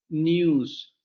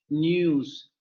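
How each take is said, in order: Both takes have the same delivery.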